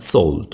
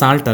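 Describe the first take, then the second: First: The vowel sounds like a rounded 'oh'. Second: The vowel sounds like a long 'ah'. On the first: The speaker calls it right. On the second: The speaker calls it wrong. "സാൾട്ട് അല്ല"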